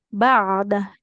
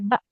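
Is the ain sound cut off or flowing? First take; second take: flowing; cut off. First: The ain sound flows on smoothly. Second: The ain sound is cut off abruptly. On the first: The speaker calls it right. "Huruf ain itu dia harus mengalir suaranya" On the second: The speaker calls it wrong. "Nggak boleh ba"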